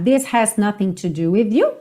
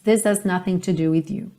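First: The h of has is clearly pronounced. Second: The h of has is dropped, sounding like is. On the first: "se você quiser reforçar esse H" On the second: "você não tem is totalmente. É meio this is"

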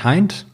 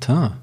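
First: The word is pronounced as a German word. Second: The word is pronounced in the French manner. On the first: The speaker calls it wrong. "Und sagen nicht Teint" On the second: The speaker calls it right. "Leute haben das wirklich gelernt, das zu sprechen"

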